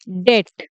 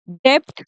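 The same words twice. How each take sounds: First: डेट said "det", nothing before the t; teacher's model डेट, rhyming with "get"; correct silent-b "debt". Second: डेप्ट said "dept", p sounded; wrong "debt" with p. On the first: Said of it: "इसे बोला जाता है". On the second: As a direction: pronounce a p before the t in डेप्ट. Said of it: "डेप्ट नहीं बोलते इसे". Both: Shown as a demonstration.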